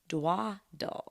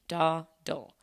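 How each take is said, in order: First: The word begins with the sound 'dwa'. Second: The word begins with the sound 'daw'. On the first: The speaker calls it wrong. "the way I've always pronounced it is D W A D L E" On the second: The speaker calls it right. "the actual way to say it, and I'm going to spell it out, is D A W D L E"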